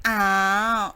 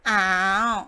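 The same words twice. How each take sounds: First: The syllable is said with the third tone. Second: The same.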